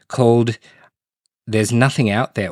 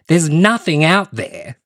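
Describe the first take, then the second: First: It is said in a flat, plain way. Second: It is said dramatically, like an exclamation.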